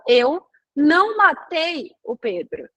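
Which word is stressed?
matei. The stress falls on the word matei. The speaker may have hurt him but did not kill him. "eu não matei, mas eu posso ter agredido ele"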